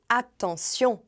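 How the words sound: It is said with a French pronunciation. "a gente diz attention"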